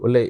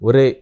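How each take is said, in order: First: The middle consonant is an L sound. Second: The middle consonant is a clear R sound. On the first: This is how the regional dialect says it. "వాళ్ళు ఒలేయ్" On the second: This is how the standard dialect says it. "మనం ఒరేయ్ అంటే"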